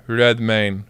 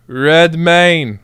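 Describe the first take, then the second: First: Low, hushed name-drop of Redmayne; quiet awe. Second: Redmayne stretched out at full voice; emphatic awe. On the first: Streamer marvelling at the super sub, quiet awe. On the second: Streamer hailing the super sub, Redmayne drawn out emphatically. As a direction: draw out REDMAYNE with a swell. Repeats the name with more force. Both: Real, not acted.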